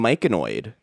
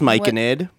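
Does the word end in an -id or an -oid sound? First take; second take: -oid; -id. First: The word ends with an -oid sound. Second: The word ends with an -id sound. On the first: The speaker calls it wrong. "Who let me keep saying myconoid? That's not a word" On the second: The speaker calls it right. "It's myconid"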